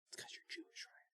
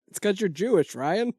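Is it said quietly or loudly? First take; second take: quietly; loudly. First: It is said quietly and timidly. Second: It is said loudly and confidently.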